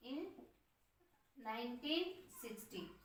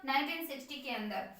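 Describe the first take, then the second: First: Softer, each word drawn out to be written down; slow dictation. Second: Said in the usual way. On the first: Shown as a demonstration. Teacher dictating the year to students, softly and slowly. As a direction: read out slowly for the class to copy. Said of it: "लिख सकते हैं". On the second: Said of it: "Then लिख सकते हैं".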